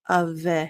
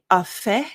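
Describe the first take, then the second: First: The consonant is a voiced V sound. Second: The consonant is a voiceless F sound. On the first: The speaker calls it right. "the F sounds more like a V" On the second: The speaker calls it wrong. "it's going to not be a fe"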